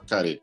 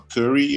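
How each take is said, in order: First: The word is said with a Japanese accent. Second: The word is said without a Japanese accent. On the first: "ele fala carê" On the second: "ele não consegue falar curry"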